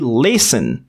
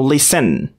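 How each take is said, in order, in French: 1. L'accent est sur la première syllabe. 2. L'accent est sur la deuxième syllabe. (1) "L'accent se trouve dans la première syllabe" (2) "Si on avait l'accent sur la deuxième"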